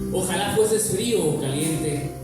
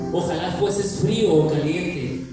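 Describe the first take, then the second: No difference in how they are said.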